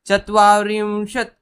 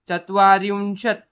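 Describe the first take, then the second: Both takes have the same delivery.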